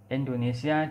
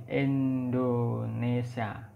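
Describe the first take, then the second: First: Said in the usual way. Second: "Indonesia" as "Endonesia", drawn out slowly. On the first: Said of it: "Indonesia diucapkan dengan". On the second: Shown as a demonstration. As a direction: open "Indonesia" with an E sound instead of I. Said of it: "E menjadi Indonesia". ("Indonesia" dilafalkan "Endonesia", pelan)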